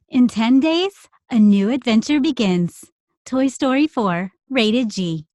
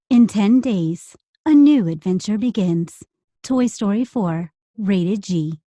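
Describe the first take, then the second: First: It is read in a light, cute tone. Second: It is read in a more serious tone.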